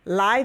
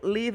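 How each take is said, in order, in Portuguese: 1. É pronunciada como o substantivo. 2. É pronunciada como o verbo. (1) "Live é substantivo" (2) "live é verbo"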